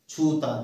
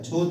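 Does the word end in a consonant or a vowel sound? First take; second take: vowel; consonant. First: The word ends on an open vowel sound. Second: The word ends on a consonant sound. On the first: The speaker calls it right. "अपने आप छूता" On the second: The speaker calls it wrong. "छूत नहीं"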